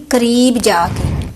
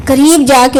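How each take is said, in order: First: قریب جا کے said slowly and deliberately, each word drawn out; slow emphasis. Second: قریب جا کے said louder, punched with force; louder emphasis. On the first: Advising mothers, stretching قریب جا کے slowly for emphasis. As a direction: spell out قریب جا کے slowly to drive it home. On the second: Advising mothers, repeating قریب جا کے louder to insist. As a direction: hit قریب جا کے hard and loud. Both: Shown as a demonstration. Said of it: "کیا کرنا چاہیے؟".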